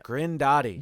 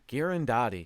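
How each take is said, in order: First: No vowel is heard between G and r. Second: An extra vowel is heard between G and r. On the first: The speaker calls it right. "What's the correct way to say it?" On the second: The speaker calls it wrong. "Stop saying Girandotti"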